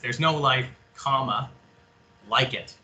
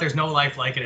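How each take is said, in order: First: There is a pause after life. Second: It is said without a pause after life.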